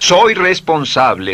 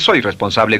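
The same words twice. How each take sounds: First: It is said warmly, full of feeling. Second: It is said flatly, without feeling. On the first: The speaker calls it right. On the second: The speaker calls it wrong. "no dice"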